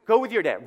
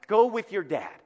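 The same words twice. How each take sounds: First: Louder, sharper second order; firmer repeat. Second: Said in the usual way. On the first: Retold or imitated. Mother losing patience with the kids, louder repeat. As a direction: push it harder the second time.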